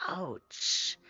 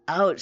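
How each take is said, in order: First: Soft breathy whisper of "Ouch.". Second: Said in the usual way. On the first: Real, not acted. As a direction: whisper it, wincing for her. Sympathetic wince at viewer's injury.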